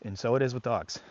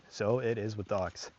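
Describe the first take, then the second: First: Said in the usual way. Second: Softer, slower echo of the point; quiet, slow repeat. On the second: Shown as a demonstration. Trainer repeating the point to viewers, softly and slowly. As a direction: let the repeat sink in quietly.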